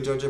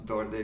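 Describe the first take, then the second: First: The name starts with a J sound. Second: The name starts with a plain D sound. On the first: The speaker calls it right. "I realized that's a J. So it's like George" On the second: The speaker calls it wrong. "that's not Dorde, not even close"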